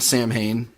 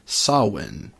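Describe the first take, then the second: First: The name is read the way it is spelled. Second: The name is said with its Gaelic pronunciation. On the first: The speaker calls it wrong. "which isn't actually the correct pronunciation" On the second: The speaker calls it right. "the correct Gaelic pronunciation is Samhain"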